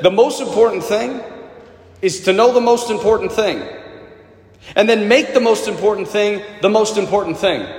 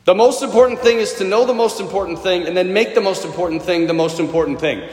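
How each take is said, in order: First: Each phrase set apart by pauses; slow, weighty quote. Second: The line in one unbroken run; quick recap in a single breath; quick run-through. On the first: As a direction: lay the line out slowly, pausing between phrases. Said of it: "I'll never forget this line". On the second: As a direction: rattle it off without pausing. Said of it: "repeats the line in one breath". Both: Shown as a demonstration.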